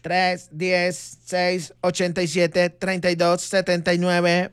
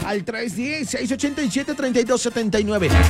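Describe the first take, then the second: First: The number is read at a slow pace. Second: The number is read at a fast pace.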